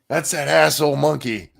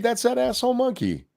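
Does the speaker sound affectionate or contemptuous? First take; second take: contemptuous; affectionate. First: It is said in a scornful, contemptuous tone. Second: It is said in a warm, affectionate tone. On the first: The account is remembered with dislike. "not always for positive reasons" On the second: The account is remembered fondly. "the great part about it is that can also be"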